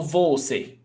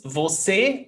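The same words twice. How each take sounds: First: Second "você" stressed on VO, VÓ-ce; stress on first syllable. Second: First "você" stressed on the final CÊ, vo-SÉ; stress on last syllable. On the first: Teacher offers the wrong option, "você" stressed on VO. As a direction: hit the VO of "você" and drop the ending. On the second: Teacher offers student a choice, "você" stressed on CÊ. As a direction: lift and lean on the CÊ of "você". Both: Shown as a demonstration. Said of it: "The pronunciation is você ou você?".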